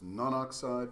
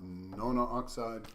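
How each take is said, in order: First: The prefix vowel is dropped before oxide. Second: The prefix vowel is kept before oxide. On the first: The speaker calls it right. "It is non-oxide" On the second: The speaker calls it wrong. "not nona-oxide"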